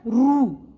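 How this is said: The syllable ends with an 'oo' vowel. This is the regional pronunciation of the letter. "री को महाराष्ट्र, गुजरात और दक्षिण भारत में क्या बोला जाता है"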